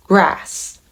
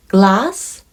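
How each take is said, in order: First: 'grass' with an English R after G, falling; R sound. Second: 'Glass' with a clear L after G, rising; L sound. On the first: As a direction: say 'grass' with a rounded R, tune down. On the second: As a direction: say 'Glass' with a crisp L, tune up. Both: Shown as a demonstration. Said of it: "その違いを皆さん聞き分けられるか".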